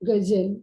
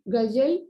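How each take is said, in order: First: The middle consonant is a z sound. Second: The middle consonant is a plain j sound. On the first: The speaker calls it right. "Number two वाला सही है" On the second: The speaker calls it wrong. "Number one वाला सही क्यों नहीं है? ... इसमें यहाँ पर नुक्ता नहीं"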